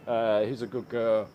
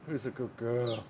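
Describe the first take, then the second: First: Said in the usual way. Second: Soft, hushed pet talk; cooing softly. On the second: Real, not acted. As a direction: coo it gently to the pet. Talking to pet, softer take.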